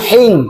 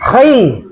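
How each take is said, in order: First: It starts with a soft, breathy h sound. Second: It starts with a harsh, raspy throat sound. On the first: The speaker calls it wrong. "bukan hing" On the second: The speaker calls it right. "khing bukan hing"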